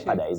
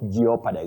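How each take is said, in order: First: The O is silent in the word. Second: The O is pronounced in the word. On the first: The speaker calls it right. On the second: The speaker calls it wrong.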